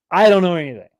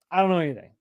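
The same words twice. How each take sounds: First: Loud, emphatic protest of innocence. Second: Said in the usual way. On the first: Pretend. Host insisting to his viewers that he knows nothing, loud. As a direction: belt it out as a joking protest.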